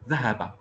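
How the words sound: The sounds are joined into one smooth word. "je prononce le mot en seule prononciation"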